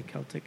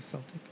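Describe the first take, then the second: First: "Celtic" with a hard K sound; hard C pronunciation. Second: "Celtic" with a soft S sound; soft C pronunciation. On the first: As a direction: begin "Celtic" like "kelp". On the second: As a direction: begin "Celtic" like "sell". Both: Shown as a demonstration. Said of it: "How you say Celtic instead of Celtic".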